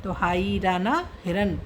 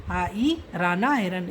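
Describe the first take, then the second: First: Said in the usual way. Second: हाई राना हिरन said slowly, each syllable laid out; slow spelled-out demo. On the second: Shown as a demonstration. Teacher to students, showing how to read हिरन slowly. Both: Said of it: "इसको ऐसे बोलेंगे".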